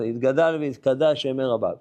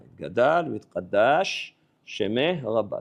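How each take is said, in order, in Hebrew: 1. שני צלילי ה-sh נמזגים לאחד. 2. שני צלילי ה-sh נשמרים בבירור נפרדים. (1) "כולם ככה עושים, כמעט כולם. לא אדוני, לא ככה" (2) "תעשה הפרדה בין שין לשין. אל תבלע אותיות"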